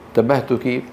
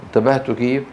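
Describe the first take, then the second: The two takes are said the same way.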